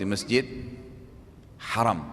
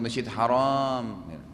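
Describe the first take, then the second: First: The second vowel of haram is short. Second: The second vowel of haram is long. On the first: The mosque is honored. The speaker calls it right. "Sholat di masjid haram" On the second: The mosque is forbidden. The speaker calls it wrong. "Jangan bilang sholat di masjid haram, salah artinya"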